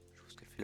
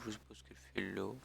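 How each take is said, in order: First: Whispered. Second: Said in the usual way. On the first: Acted. Répétée tout bas, sans voix.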